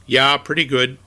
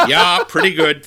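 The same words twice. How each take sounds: First: Put-on a light Minnesota accent on the reply; mimicked Minnesota reply. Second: Louder Minnesota "Yeah, pretty good"; Minnesota reply repeated. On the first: [name] answering his father-in-law in a light Minnesota accent. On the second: Retold or imitated. The typical reply heard in Minnesota, in a light Minnesota accent. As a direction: repeat it with a bit more Minnesota punch. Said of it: "That's what you hear".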